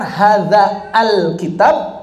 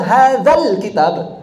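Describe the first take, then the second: First: The 'al' is said separately with its own vowel. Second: The 'l' is merged directly onto 'hadza'. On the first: The speaker calls it wrong. "Ada hamzahnya nggak?" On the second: The speaker calls it right. "Ditambah lam doang kan?"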